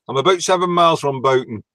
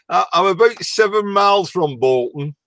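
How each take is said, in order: First: The town name is said without an L sound. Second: The town name is said with an L sound.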